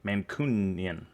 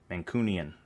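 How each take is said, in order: First: Mancunian sounded out slowly, MAN-kyu-nan; slow, careful first try at Mancunian; testing how Mancunian is said; careful try at a place name. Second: Said in the usual way. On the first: Shown as a demonstration.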